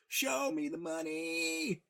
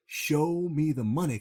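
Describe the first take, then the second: First: Sung, much higher, slow, stretched-out shout; drawn-out sung. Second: Louder, slow, dragged-out shout of the line; mock yell. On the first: Retold or imitated. Sung, Jerry yelling back into the phone, drawn out high. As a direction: stretch it long and high, half singing. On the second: Jerry on the phone, pushed by his client, slowly yelling it out. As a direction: belt it out slowly, like a man being egged on.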